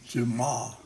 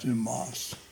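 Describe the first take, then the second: First: The final s is silent. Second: The final s is pronounced. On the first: The speaker calls it right. "they don't pronounce the S's, you know, it's like Alexander Dumas" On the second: The speaker calls it wrong. "not yeah. Dumas"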